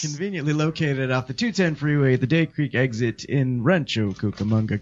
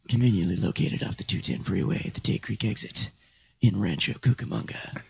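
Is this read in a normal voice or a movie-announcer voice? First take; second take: normal; movie announcer. First: It is read in a plain, ordinary speaking voice. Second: It is read in a dramatic movie-announcer voice. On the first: The speaker calls it wrong. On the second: The speaker calls it right.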